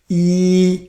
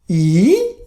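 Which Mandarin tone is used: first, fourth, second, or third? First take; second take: first; third. First: The pitch stays high and level. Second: The pitch dips low and then rises. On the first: "First tone, you practice yi" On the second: "Third tone"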